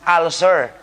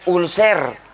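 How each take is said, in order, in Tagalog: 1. Binibigkas ang salita sa pamantayang paraang Ingles. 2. Binibigkas ang salita sa lokal na paraang Pilipino. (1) "in medicine, it should be pronounced as ulcer" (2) "Sa Pilipinas, ang salita nyo niyan"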